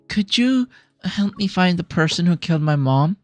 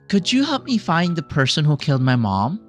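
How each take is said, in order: First: It is said in a serious, unhappy tone. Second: It is said in a happy tone. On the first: The speaker calls it right. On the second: The speaker calls it wrong.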